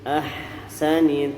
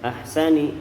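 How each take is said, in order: First: The h sound is breathy and drawn out. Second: The h sound is cut short. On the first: The speaker calls it right. "agak sedikit memanjang" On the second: The speaker calls it wrong. "bukan ahsani"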